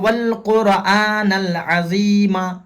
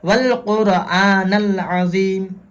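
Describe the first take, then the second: First: The last word ends with a vowel sound. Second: The last word ends on a bare consonant. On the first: The speaker calls it wrong. "ऐसे रुकते हैं, लेकिन ये तरीका गलत है" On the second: The speaker calls it right. "इस तरीके से"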